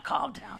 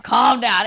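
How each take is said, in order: First: Soft self-calming. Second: "calm down" pushed out louder; almost shout it at yourself; urgent self-command. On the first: Telling herself to stay cool, she says "calm down" softly. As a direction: soothe yourself under your breath. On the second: Losing the fight with her temper, she says "calm down" louder. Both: Retold or imitated. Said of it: "I need to calm down".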